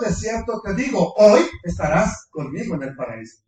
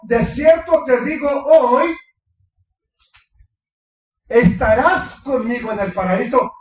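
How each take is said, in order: First: The pause comes before the word hoy. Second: The pause comes after the word hoy.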